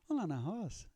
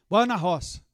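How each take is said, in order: First: The invitation sounds innocent and friendly. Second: The invitation sounds menacing and blunt.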